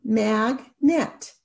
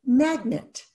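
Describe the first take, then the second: First: Mag-net, each syllable tapped apart. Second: Said in the usual way. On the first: Shown as a demonstration. Teacher tapping out syllables for students, slow and separated. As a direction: tap out "Magnet" slowly, syllable by syllable. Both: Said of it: "Let's tap it out".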